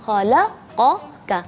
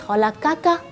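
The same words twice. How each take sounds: First: The q sound is heavy and full. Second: The q sound is light and thin. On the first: The speaker calls it right. "qafnya tetap tebal" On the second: The speaker calls it wrong. "huruf qafnya jadi tipis"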